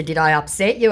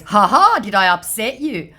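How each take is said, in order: First: Said in the usual way. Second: High laugh, then a teasing question; mocking scammer voice. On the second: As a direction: needle him with a smug laugh. Reading out the scammer's taunt.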